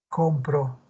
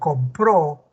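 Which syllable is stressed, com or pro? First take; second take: com; pro. First: The stress is on the first syllable. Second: The stress is on the second syllable. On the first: "¿Cuál es la sílaba tónica? ... Es com" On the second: "el acento está en compró, en la pro"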